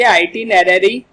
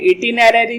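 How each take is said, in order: First: The word begins with an 'eye' sound. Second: The word begins with a short 'ih' sound. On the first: The speaker calls it right. "आइटिनरी इसका उच्चारण है" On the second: The speaker calls it wrong. "इटिनरी नहीं बोलेंगे"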